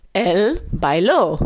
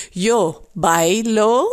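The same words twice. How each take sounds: First: Bailó with the final ló stressed and falling; stress on the last syllable. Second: Bailo with the stress on BAI, slow. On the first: Teacher contrasting the past tense with the present, stressing the final syllable. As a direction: land on ló at the end of bailó. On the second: Teacher contrasting the present tense with the past, stressing BAI. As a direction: say bailo slowly, leaning on the first syllable, BAI. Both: Shown as a demonstration. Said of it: "klemtoon op de laatste lettergreep".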